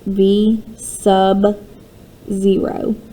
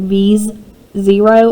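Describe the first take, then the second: First: The middle word is said fully as sub. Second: The middle word is reduced to an s sound. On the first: The speaker calls it right. "So it's pronounced V sub zero" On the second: The speaker calls it wrong. "I never said it right as a student. I always was like"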